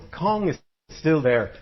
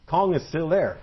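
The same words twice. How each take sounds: First: Cong said slow and firm, stressed; emphatic repeat. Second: Said in the usual way. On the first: Shown as a demonstration. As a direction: slowly insist that Cong is still there.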